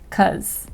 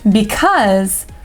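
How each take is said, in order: First: The word is cut to one short syllable. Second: The word is said fully with two syllables.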